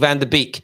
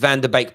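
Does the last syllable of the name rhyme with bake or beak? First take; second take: beak; bake. First: The last syllable rhymes with beak. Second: The last syllable rhymes with bake. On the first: The speaker calls it wrong. "Please stop saying" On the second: The speaker calls it right. "it's pronounced bake, as in bake off, like bake a cake"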